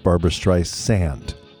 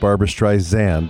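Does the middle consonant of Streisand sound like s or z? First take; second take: s; z. First: The middle of Streisand has an s sound. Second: The middle of Streisand has a z sound. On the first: The speaker calls it right. "it's [name]" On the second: The speaker calls it wrong. "no longer is it [name]"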